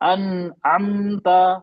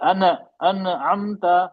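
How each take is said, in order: First: The consonant is held steady without bouncing. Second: The consonant bounces with an echoing release. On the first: The speaker calls it right. "आवाज नहीं पलटी" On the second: The speaker calls it wrong. "आवाज पलट गई, ये हो गया कलकला"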